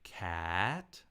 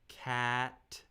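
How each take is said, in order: First: The pitch moves instead of staying level. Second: The pitch stays high, steady and level. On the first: "Now let's say cat with the second tone" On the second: "I'm going to say cat with a first tone"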